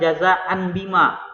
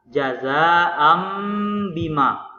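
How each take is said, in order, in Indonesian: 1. Bunyi sengau sebelum b jelas terdengar sebagai n. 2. Bunyi sengau sebelum b berubah menjadi m. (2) "yang sebenar cara bacanya"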